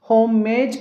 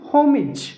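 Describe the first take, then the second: First: The last syllable has an 'ay' vowel. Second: The last syllable has a short 'ih' vowel. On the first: The speaker calls it wrong. "హోమేజ్ కాదండి" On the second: The speaker calls it right.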